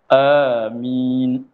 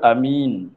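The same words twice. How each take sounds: First: Long first vowel and a single m. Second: Short first vowel and a single m. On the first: "panjangkan hamzah, mim tidak bertasydid" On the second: "Kalau a pendek"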